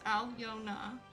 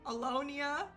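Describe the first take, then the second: First: The name is said as Alyona, three syllables. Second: The name is said as Alonia. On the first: The speaker calls it right. "three syllables" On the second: The speaker calls it wrong. "Where's the I in between the N and the A"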